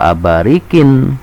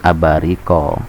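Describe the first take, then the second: First: The word ends with an -in sound. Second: The word ends with a plain a vowel. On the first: The speaker calls it wrong. "jangan sampai kita mengucapkan bi akwabin wa abarikin" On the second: The speaker calls it right. "tetapi harus abariko"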